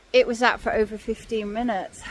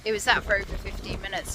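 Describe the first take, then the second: First: Deliberate emphatic statement. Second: Fast, softer restatement of "It was that for over fifteen minutes"; hurried lower repeat; quick repeat. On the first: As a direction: stress on "It was that", each word weighted. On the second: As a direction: rush it as an afterthought. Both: Real, not acted.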